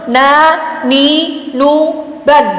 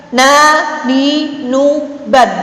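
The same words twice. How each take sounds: Both takes have the same delivery.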